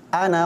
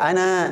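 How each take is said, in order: First: The final vowel is cut short. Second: The final vowel is held long. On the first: The speaker calls it right. "tapi ana khairum minhu" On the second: The speaker calls it wrong. "Ana tidak dibaca ana"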